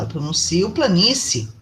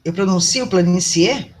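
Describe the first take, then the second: First: "planície" ending in a short -si, the final e swallowed; "planície" as plani-si, one vowel dropped. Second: "planície" with i-e both sounded, asked; "planície" mit beiden Endvokalen, fragend; full vowels, doubtful. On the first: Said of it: "falei baixinho uma delas". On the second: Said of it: "Eu comi uma dessas vogais". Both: Shown as a demonstration.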